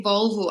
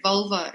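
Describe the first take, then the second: First: Said in the usual way. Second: "vulva" ending in an open "a", not "o"; slip of "Volvo". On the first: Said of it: "I said vulva instead". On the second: Shown as a demonstration. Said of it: "didn't say Volvo, I said vulva".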